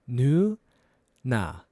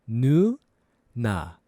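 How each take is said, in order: Both takes have the same delivery.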